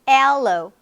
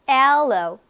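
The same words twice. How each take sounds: No difference in how they are said.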